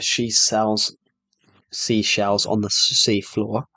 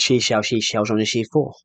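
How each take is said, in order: First: It is said at a normal, careful speed. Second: It is said quickly, with the sounds slurred.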